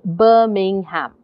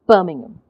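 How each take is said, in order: First: It is slow, with every syllable fully pronounced. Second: The unstressed middle syllables are swallowed and reduced. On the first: "if I said that slowly, if I said that without the stress" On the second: "because English is a stressed time language, you would say"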